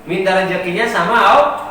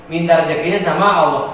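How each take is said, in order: Both takes have the same delivery.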